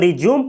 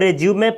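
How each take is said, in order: First: It is pronounced the way the verb is said. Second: It is pronounced the way the noun is said. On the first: It means to start again. "जब इसका use verb के रूप में किया जाता है तो रिज्यूम पढ़ा जाता है" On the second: It means a biodata document. "नाउन के रूप में किया जाता है तो इसको रेज्यूमे पढ़ा जाता है"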